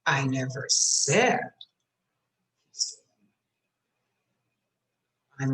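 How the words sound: The word "said" is stressed. I only implied it, not said it. "I might have implied it"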